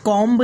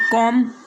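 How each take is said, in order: First: The final b is pronounced. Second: The final b is silent. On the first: The speaker calls it wrong. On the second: The speaker calls it right.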